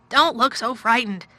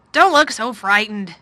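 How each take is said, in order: First: Louder, sharper exclamation; exclaimed. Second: Slow, concerned and a little raised; worried voice. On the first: Guardian to a scared girl, exclaiming. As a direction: blurt it out, exasperated. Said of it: "he exclaimed". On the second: Guardian to a scared girl, slow and worried. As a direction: reassure her with slow worry. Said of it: "he said in a worried voice". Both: A narrator's reading.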